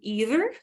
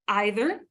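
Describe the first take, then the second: First: It is said the plain American way. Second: It is said in an un-American, pretentious-sounding way. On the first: The speaker calls it right. "either should be either" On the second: The speaker calls it wrong. "not either, because either is un-American and it's pretentious"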